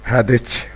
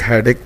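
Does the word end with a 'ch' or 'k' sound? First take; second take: ch; k. First: The word ends with a 'ch' sound. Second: The word ends with a 'k' sound. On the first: "इसको कुछ लोग हैडिच भी पढ़ते हैं" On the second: "कुछ लोग हेडेक पढ़ते हैं"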